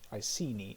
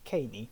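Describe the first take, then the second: First: The name is said with an English pronunciation. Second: The name is said with a Latin pronunciation.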